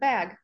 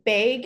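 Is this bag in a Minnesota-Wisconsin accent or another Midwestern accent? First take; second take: other Midwestern; Minnesota-Wisconsin. First: It is said in another Midwestern accent. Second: It is said in a Minnesota-Wisconsin accent. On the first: "instead of bag" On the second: "more in the Minnesota, Wisconsin area, they say bag"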